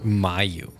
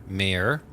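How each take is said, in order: First: The name drops the R, ending in 'you'. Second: The name is read as spelled, ending in R. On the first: "you need to pronounce it with silent letters" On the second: "That's what your name is spelt like"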